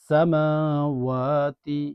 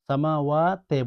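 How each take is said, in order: First: The word ends with an 'i' sound. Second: The word ends with an 'e' sound. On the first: The speaker calls it right. "তি" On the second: The speaker calls it wrong. "সামাওয়াতে বলবেন না"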